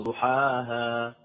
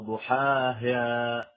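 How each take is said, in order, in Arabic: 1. المقطع الأخير يبدو عادياً، لا ثقيلاً ولا مائلاً. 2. حركة الهاء الأخيرة تميل نحو صوت الإمالة. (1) "لا هي ليست ممالة ولا كذلك مفتوحة، وإنما ضحاها" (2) "يبالغ في تدقيقها حتى تصير كأنها ممالة"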